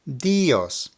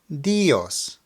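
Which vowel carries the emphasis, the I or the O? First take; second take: I; I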